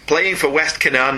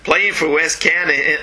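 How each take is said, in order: First: It is said in the speaker's usual accent. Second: It is said in an attempted Southern US accent. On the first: "should I have done that in a Southern accent?" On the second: "No, that's not right, is it?"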